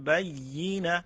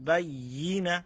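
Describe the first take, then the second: Both takes have the same delivery.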